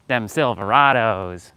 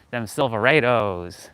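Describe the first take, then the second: First: Slow attempt at Southern, Silverados with AH; badly faked Southern drawl, veering toward Spanish; failed Southern twang. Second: Slow Southern drawl, Silverados with AY; badly faked Southern twang on "silver-AY-toes"; corrected Southern attempt. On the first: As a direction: stretch it out in a botched Southern accent. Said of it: "like, Spanish accent". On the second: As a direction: drag it out in an attempted Southern accent. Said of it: "gotta bust out that Southern". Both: Shown as a demonstration.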